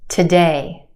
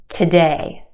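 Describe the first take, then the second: The two takes are said the same way.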